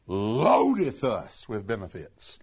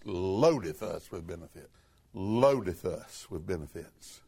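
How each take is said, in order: First: Said in the usual way. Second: Hushed repeat. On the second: Shown as a demonstration. Preacher repeating scripture to congregation, hushed and lower. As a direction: lower and softer, savoring each word. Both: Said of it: "What's the next word?".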